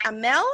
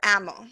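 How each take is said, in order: First: Amel stressed on the second syllable, "uh-MELL"; name pronunciation option. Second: Amel stressed on the first syllable, "AM-ul"; name pronunciation option. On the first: Host checking a newcomer's name, Amel with end stress. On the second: Host offering another way to say a newcomer's name, Amel with front stress. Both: Shown as a demonstration. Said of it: "Is it Amel or Amel?".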